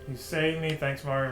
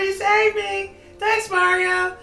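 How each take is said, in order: First: It is said in his normal voice. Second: It is said in a put-on Toad voice.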